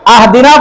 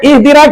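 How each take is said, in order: First: The word begins with an 'a' vowel. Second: The word begins with an 'i' vowel. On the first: The speaker calls it wrong. "आहदिना पढ़ देना" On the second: The speaker calls it right. "इहदिना की जगह पर"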